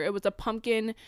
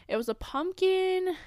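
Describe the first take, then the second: First: Said in the usual way. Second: "pumpkin" lifted much higher and stretched slowly; drawn-out high pumpkin. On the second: Shown as a demonstration. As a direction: pull "pumpkin" up high and slow, savouring it.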